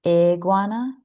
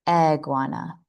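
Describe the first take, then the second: First: "Iguana" as "ig-wana", held up for comparison; correct I sound. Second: "iguana" opened on the E of "egg"; incorrect E. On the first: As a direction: say "Iguana" starting with a short ih. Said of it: "Do you hear the difference?". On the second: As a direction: say "iguana" starting with eh instead of ih. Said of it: "saying it incorrectly with an E instead". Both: Shown as a demonstration.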